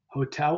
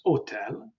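First: Said in the usual way. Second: Hotel as o-TEL, with no h; silent H. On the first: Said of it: "is silent". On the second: Shown as a demonstration. Teacher giving an Italian example, hotel with silent h. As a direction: drop the h from hotel, Italian style. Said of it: "would be pronounced hotel".

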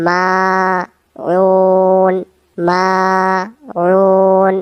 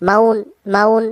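First: মাউন with the মা held long and slow; stretched maaun. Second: মাউন clipped short, vowel not stretched; wrong short maun. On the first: Teacher shows students the correct long মাউন. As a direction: pull out the a in মাউন one alif. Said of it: "মিমের জবরটা এক আলিফ টেনে ধরতে হবে". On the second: Teacher shows students the wrong short মাউন. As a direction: say মাউন quick with no long a. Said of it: "মাউন এমন হবে না". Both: Shown as a demonstration.

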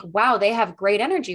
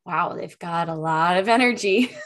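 First: Said in the usual way. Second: Bright, animated demo of an excited wow. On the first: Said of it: "someone that's a little more flat". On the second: Shown as a demonstration. Host demos an energetic speaker, excited and emphatic. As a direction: gush it with big emphasis. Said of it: "they're talking like this and they're really excited".

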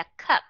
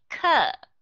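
First: "cup" with a very short vowel; quick "cup", stopped at the p. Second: "Cup" drawn out, like "cub"; long vowel. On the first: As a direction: cut "cup" short on closed lips. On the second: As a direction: stretch the vowel of "Cup" before a b. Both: Shown as a demonstration. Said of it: "hãy nghe những cái chữ này".

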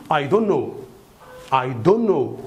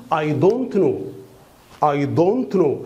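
First: "I don't know" merged as "I dunno", T dropped; fast-speaking pronunciation. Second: "I don't know" word by word, T sounded in "don't"; slow speaking. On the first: Teacher shows fast speaking to learners, merged "don-no". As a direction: slide "don't" into "know" without the T. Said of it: "أنطقها فاست سبيكينج إزاي؟". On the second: Teacher models slow speaking, careful full "don't know". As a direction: keep "don't" and "know" separate with a clear T. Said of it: "في السلو سبيكينج بنقول". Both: Shown as a demonstration.

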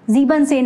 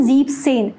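First: ज़ीबन सेन, first word keeping its -बन ending; incorrect long form. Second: ज़ीब सेन, first word cut to one syllable ending in b; correct short form. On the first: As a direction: say ज़ीबन सेन with the extra -en syllable left in. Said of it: "नहीं होता". (ज़ीबन सेन, ईएन के साथ) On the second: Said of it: "सेवनटीन में क्या हो जाता है". (ज़ीब सेन, ईएन हटाकर) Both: Shown as a demonstration.

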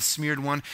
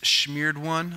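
First: Said in the usual way. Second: "smeared" said as "shmeared"; playful pronunciation. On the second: Shown as a demonstration. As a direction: relish a "shm" sound starting "smeared". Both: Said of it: "I like saying it like that".

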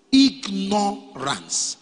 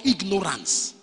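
First: "Ignorance" very slow, split as ig-no-rance; syllable by syllable. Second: Said in the usual way. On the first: Shown as a demonstration. Preacher explaining to youths why it's called "Ignorance", slow syllable by syllable. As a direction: spell out "Ignorance" by ear, stretching each syllable. Teacher breaks the word up slowly.

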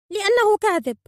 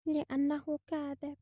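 First: Very high, loud bird voice; high, indignant cry; accusing phoenix. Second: Slow, soft, high bird voice; drawn-out, quiet childlike insistence; primitive speech. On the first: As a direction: burst out with the accusation. Phoenix accuses the old man. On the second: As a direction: repeat it slowly and simply. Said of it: "للطريقة البدائية التي يتكلم بها". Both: A narrator's reading.

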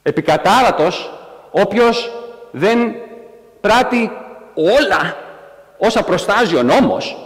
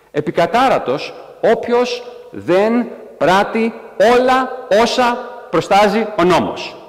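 First: Each word set apart by a pause, pitch climbing up to πράττει; word-by-word emphasis. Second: Slow, high, drawn-out solemn decree; solemn proclamation. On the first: Shown as a demonstration. Preacher slowly rereads the curse, stressing each word. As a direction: spell out every word as if stunned by it. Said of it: "Όπα, κάτσε, περίμενε. Τι ήταν αυτό". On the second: Acted. Preacher proclaiming the law's final curse, slow and solemn. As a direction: intone it like an ancient law read aloud. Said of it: "ο νόμος λέει".

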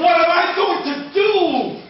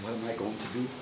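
First: Loud, high wail of helplessness; despairing cry. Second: Soft, low bewildered question to himself; puzzled muttering. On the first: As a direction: cry it out to the sky. Chief despairs after losing deer. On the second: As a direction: wonder it quietly under your breath. Chief scratches his head, baffled. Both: Acted.

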